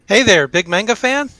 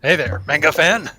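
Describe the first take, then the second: First: It is said in a normal voice. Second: It is said in a deep, growly Duskwing voice.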